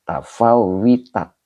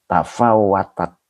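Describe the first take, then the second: First: The vowel after w is an i sound. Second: The vowel after w is an a sound. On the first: The speaker calls it wrong. "Bukan gitu ya" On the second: The speaker calls it right. "Begitu ya"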